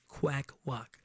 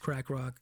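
First: The first word is said with a W sound. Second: The first word is said with an R sound.

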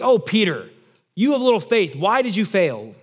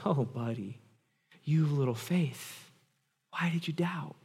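First: It is said in an angry tone. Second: It is said in a warm, smiling tone.

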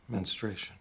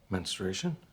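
First: It falls at the end like a statement. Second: It rises at the end like a question.

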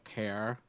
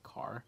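First: The vowel is said with a Buffalo accent. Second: The vowel is said with a standard accent. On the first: "people in Buffalo have that same accent ... they'll say like care" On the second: "instead of like car"

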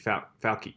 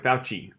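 First: The middle consonant is not said as ch. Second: The middle consonant is said as ch. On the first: "if he was in English, it would be Fauci" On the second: "it's an Italian name and the double C is pronounced Ch"

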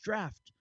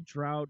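First: The vowel rhymes with 'daft', ending in 'ft'. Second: The vowel rhymes with 'out', ending in 't'. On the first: The speaker calls it right. "It's just draft" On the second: The speaker calls it wrong. "don't say drought"

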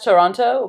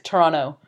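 First: The second T is clearly pronounced. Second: The second T is dropped. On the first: This is how the spelling suggests it. "you read it as Toronto" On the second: This is how locals say it. "they don't pronounce the second T in there"

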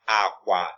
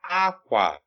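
First: Both syllables are said on a low tone. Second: The first syllable is high, the second low. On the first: It means bed. "Low tone" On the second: It means cloth. "High tone, low tone"

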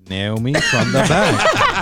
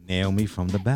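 First: It is said with lively, high energy. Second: It is said flatly, with little energy.

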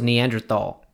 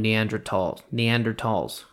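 First: The middle consonant is a TH sound. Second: The middle consonant is a plain T sound. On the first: "I thought it was Neanderthal with TH" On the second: "they called them Neanderthals"

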